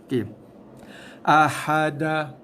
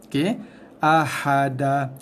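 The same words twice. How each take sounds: The two takes are said the same way.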